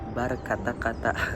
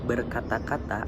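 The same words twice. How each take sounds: First: The first vowel is a clear a sound. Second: The first vowel is a weak schwa.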